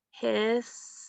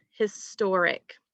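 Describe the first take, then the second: First: "Historic" broken into his, tor, ic with clear gaps; syllable by syllable. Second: Said in the usual way. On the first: Shown as a demonstration. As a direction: pause after each syllable of "Historic". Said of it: "So let's try it out". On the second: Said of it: "how many syllables are in the word".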